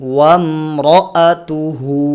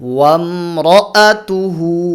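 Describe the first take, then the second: Both takes have the same delivery.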